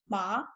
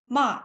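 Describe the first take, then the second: First: The pitch rises across the syllable. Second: The pitch falls across the syllable. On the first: It means hand. "pronounced with a rising pitch" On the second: It means scold. "with a falling pitch, ma, just like this"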